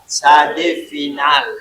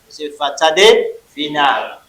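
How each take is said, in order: First: Sadé final said slowly, sadé punched; slow stress on sadé final. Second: Sadé final drawn out, sadé stressed; slow stress on sadé final. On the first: Teacher spelling sadé final slowly for students. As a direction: drill the letter name sadé final slowly. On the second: Teacher correcting students, slow sadé final. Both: Shown as a demonstration. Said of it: "Ce n'est pas sadé simple".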